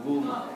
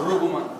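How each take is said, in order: First: Ruguma with the stress on GU, ru-GU-ma; stress on second syllable. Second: Ruguma stressed on the first syllable, RU-guma; wrong stress. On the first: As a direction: lean on the middle syllable GU of Ruguma. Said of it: "then the stress goes on ... So it's on the second". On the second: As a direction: put the weight on RU in Ruguma. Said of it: "Instead of Ruguma". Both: Shown as a demonstration.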